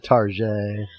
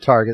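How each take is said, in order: First: The word is said in a fancy, posh-sounding way. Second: The word is said in a plain, ordinary way.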